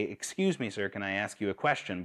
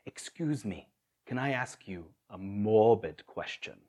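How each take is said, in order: First: Said in the usual way. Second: Soft, grave imitation of a Kenyan accent. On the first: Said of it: "But the way he would say it". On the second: Street evangelist approaching a stranger, imitated Kenyan accent. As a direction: imitate a Kenyan friend, giving each word gravity. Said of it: "in that great Kenyan accent".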